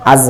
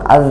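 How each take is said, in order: First: "আজ" with an ordinary Bangla z ending; Bangla-style pronunciation. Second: "আজ" ending in a soft Arabic dhal; soft zal pronunciation. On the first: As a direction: say "আজ" with the everyday hard Bangla consonant. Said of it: "আজ হয় বাংলায়". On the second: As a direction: say "আজ" with the tongue tip at the upper front teeth. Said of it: "জাল হরফটি নরম". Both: Shown as a demonstration.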